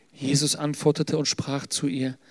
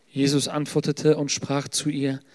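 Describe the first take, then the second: Both takes have the same delivery.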